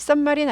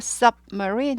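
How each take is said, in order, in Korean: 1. 'sub' 뒤에 끊김 없이 자연스럽게 이어져요. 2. 'sub' 바로 뒤에서 딱 끊어져요. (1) "submarine 아니고" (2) "딱 끊으셔야 돼요"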